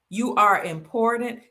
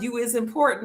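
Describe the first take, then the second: First: It is said in the speaker's normal voice. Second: It imitates the character in the movie.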